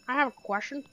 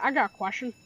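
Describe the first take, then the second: First: It is said in a put-on Jeffy voice. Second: It is said in his normal voice.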